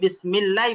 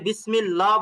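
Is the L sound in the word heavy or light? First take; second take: light; heavy. First: The L is said light, with a thin clear sound. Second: The L is said heavy, with a deep hollow sound. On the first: The speaker calls it right. "এখানে আপনাকে বিসমিল্লাহ বলতে হবে" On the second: The speaker calls it wrong. "এখানে কিন্তু আপনি বিসমিল্লাহ বলতে পারবেন না"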